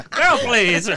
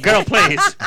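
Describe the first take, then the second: First: Said in the usual way. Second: Sassy dismissal. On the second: Real, not acted. Host dismissing the age joke, laughing and sassy. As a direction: toss it off with sass.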